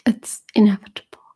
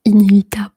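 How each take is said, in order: First: Said in the usual way. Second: Inévitable said the French way, voiced and louder; inévitable as a French speaker says it; French pronunciation. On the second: Shown as a demonstration. English then French pronunciation.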